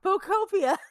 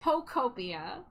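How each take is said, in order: First: Pocopia pitched high and falling; Pocopia repeated high. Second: Pocopia with a rising tune, carefully spelled out; Pocopia said slowly. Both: Shown as a demonstration.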